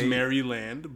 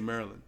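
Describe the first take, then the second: First: The name is said in its careful standard form. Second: The name is said in a local form. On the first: This is the official pronunciation. "It is Maryland" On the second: This is how locals say it. "but we say Maryland"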